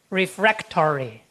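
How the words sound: It is said in an American accent. "the Americans tend to read this suffix as tory"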